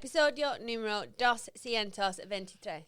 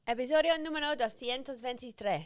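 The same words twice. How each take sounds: First: The words are spoken slowly with pauses between. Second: The words run together quickly without pauses. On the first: "So you wouldn't say" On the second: "all the words almost fall. There's no like there's no spaces"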